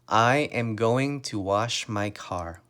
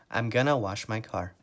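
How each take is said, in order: First: Every word is said in full, unreduced. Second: The words are contracted and reduced to gonna. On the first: It is a polite, formal way of speaking. "So let's say you're talking to your grandmother" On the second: It is a casual, informal way of speaking. "But if you're talking to your friend"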